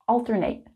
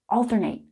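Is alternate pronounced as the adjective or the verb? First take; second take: verb; verb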